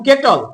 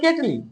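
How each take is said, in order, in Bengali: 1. শব্দটি একটি ব্যঞ্জনধ্বনিতে শেষ হয়। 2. শব্দটির শেষে যোগ করা 'i' স্বরধ্বনি আছে।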